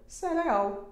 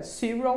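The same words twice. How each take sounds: First: Higher "Cereal" as se-re-AU; Portuguese pronunciation. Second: "Cereal" as SEE-ree-ul; English pronunciation. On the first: Teacher revealing what it means, higher-pitched Portuguese pronunciation. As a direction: say "Cereal" in Portuguese, stressed last syllable. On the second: Teacher asking learners to guess the word, English pronunciation. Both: Shown as a demonstration. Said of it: "o que é que será cereal?".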